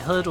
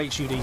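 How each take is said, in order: First: It is said as a single word. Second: It is said as three separate letters.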